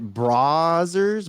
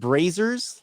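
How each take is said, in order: First: The first syllable sounds like 'bra'. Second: The first syllable sounds like 'bray'. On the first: "bra, like a bra" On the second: "like Ray, Bray"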